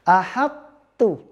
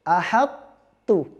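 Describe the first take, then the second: The two takes are said the same way.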